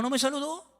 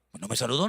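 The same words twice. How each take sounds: First: Higher, rising whine on "saludó"; mock whiny repeat. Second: Said in the usual way. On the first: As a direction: echo the complaint like a sulking child. Mimicking an offended churchgoer.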